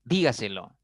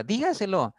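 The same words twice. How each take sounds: First: Said in the usual way. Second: Acted annoyed order, pitched sharply up; high, emphatic mock-angry command; angry demonstration. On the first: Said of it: "La mayor fuerza aparece en la cuarta sílaba". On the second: Shown as a demonstration. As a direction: demand it like someone cross. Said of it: "Cuando estamos enfadados, a veces pronunciamos".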